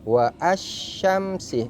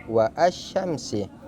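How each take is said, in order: Both takes have the same delivery.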